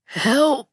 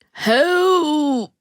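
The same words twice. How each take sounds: First: Short, high, feeble cry; small high plea; trying to call help. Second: High, drawn-out cry for help; high plaintive call. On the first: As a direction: attempt a cry for help that gets cut short. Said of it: "you try to say again". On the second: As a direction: call out in one long falling note. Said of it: "you call". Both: A narrator's reading.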